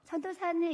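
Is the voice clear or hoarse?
clear. The voice is clear and fresh. The person has not been praying. The speaker calls it wrong. "목이 쌩쌩해가지고 전도사님 이러면 바로 혼나요"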